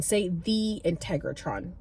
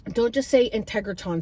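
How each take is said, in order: First: Slow, leaning on "the" in "say the Integratron"; careful slow "the Integratron"; stress on the. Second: Said in the usual way. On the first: Retold or imitated. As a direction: give "the" its own weight before "Integratron". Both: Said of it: "You have to make sure you say it the right way".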